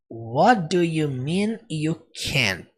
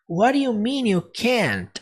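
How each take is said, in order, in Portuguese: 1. A frase é dita em um ritmo mais lento. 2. A frase é dita em um ritmo mais rápido. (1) "ele não fala desse jeito que eu falei" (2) "ele fala um pouquinho mais rápido"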